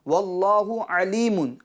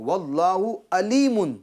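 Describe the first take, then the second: First: Alimun begins with a deep throat pharyngeal sound. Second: Alimun begins with a plain glottal stop sound. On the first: God is all-knowing. The speaker calls it right. "ऐन से है अलीम" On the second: God is painful. The speaker calls it wrong. "यानी हमज़ा पढ़ता है"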